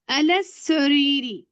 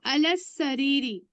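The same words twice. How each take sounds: First: Very slow "अलस सरीरी", s doubled, no l; direct reading. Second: Slow "अलस सरीरी" with the l merged into a doubled s; lam not sounded. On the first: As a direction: drag out "अलस सरीरी", l melted into s. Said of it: "direct पढ़ रही हूँ मैं". (बहुत धीरे "अलस सरीरी", लाम ग़ायब) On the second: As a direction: say "अलस सरीरी" slowly, no separate l. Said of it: "अब लाम क्यों नहीं पढ़ रही हूँ?". ("अलस सरीरी" में लाम न पढ़ें, स दोहरा) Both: Shown as a demonstration.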